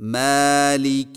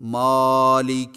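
First: The long A vowel sounds light and thin. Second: The long A vowel sounds heavy and full. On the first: The speaker calls it right. "بریق الف کی مشق" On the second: The speaker calls it wrong. "الف کو موٹا کر کے پڑھنا"

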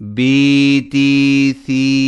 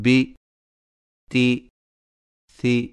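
First: The vowels are drawn out long. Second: The vowels are cut short. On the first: The speaker calls it right. "کھڑے زیر کو کھینچ کر ہی پڑھیں" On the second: The speaker calls it wrong. "بغیر کھینچے"

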